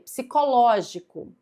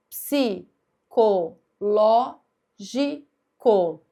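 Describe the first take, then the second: First: Said in the usual way. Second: "psicológico" very slowly, a clear pause after each syllable. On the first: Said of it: "Última, penúltima, antepenúltima". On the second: Shown as a demonstration. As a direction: chop "psicológico" into separate, countable syllables. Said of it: "vai sempre contar a sílaba".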